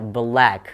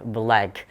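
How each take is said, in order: First: The vowel is short and relaxed. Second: The same.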